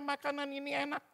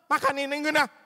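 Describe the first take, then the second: First: It is said in a warm, pleasant tone. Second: It is said in a harsh, angry tone. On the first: The speaker calls it right. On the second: The speaker calls it wrong.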